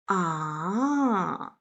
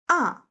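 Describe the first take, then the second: First: The pitch falls down and then rises up. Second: The pitch falls down sharply, sounding angry. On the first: The speaker is considering something. "thinking sound" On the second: The speaker is refusing. "angry sound"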